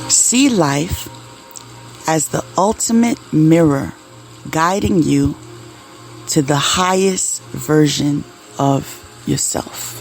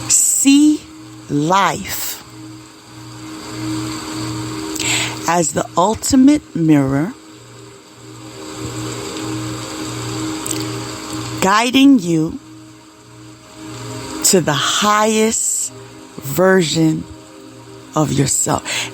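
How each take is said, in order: First: The sentence is read at a normal pace. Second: The sentence is read at a slower pace.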